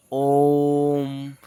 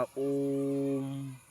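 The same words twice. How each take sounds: First: ओम held long and loud, vowel stretched to triple length; sustained chanting ओम; long drawn-out om. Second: Said in the usual way. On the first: Shown as a demonstration. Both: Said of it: "तो time लगता है ना इसके pronunciation में".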